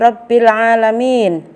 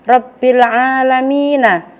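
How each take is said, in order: First: The phrase ends on a consonant sound. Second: The phrase ends with a final vowel sound. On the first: The reader stops at the end of the verse. "maka dibaca menjadi" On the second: The reading continues without stopping. "ada kalimat yang berbunyi"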